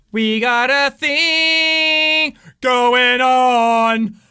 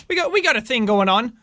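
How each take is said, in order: First: Chanted, words stretched very slow; chanted, drag each word out; slow drawn-out chant. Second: Said in the usual way. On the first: Shown as a demonstration. Player hyping himself up, slow stretched chant.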